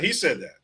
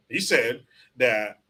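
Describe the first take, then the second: First: Said in the usual way. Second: "He said that" drawn out slowly, each word weighted; slow and insistent on "He said that"; slow emphatic. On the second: Real, not acted. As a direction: lean on "He", spell it out slowly.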